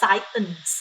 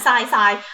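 First: The word ends with a clear 'ns' sound. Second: The word ends without the final 'ns' sound. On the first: The speaker calls it right. "แต่ถ้าอ่านให้ถูกต้องกันว่า" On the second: The speaker calls it wrong. "คนไทยชอบอ่านสายมันก็พอได้"

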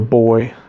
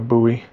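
First: Buoy is said the English-accent way. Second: Buoy is said the speaker's home way. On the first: This is how people in Europe or Canada say it. "where there's more of an English accent, that sometimes they call this a buoy" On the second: This is how people where the speaker is from say it. "not a buoy"

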